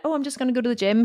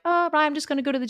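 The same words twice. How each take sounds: First: Said in the usual way. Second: Hurried, a little higher, slipping it in; tossed off fast as if it's no big deal; sheepish quick. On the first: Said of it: "every time before I would have said". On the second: Retold or imitated. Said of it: "now I would have been like".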